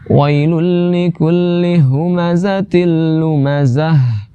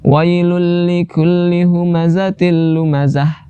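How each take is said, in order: First: The final h sound is too heavy. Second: The final h sound is too thin. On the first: "jangan terlalu besar" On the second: "Terlalu tipis"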